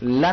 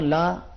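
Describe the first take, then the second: First: The vowel is clipped short. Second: The vowel is drawn out long. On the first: The speaker calls it wrong. "ला नहीं पढ़ना चाहिए" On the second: The speaker calls it right. "इस अलिफ को खींचना चाहिए"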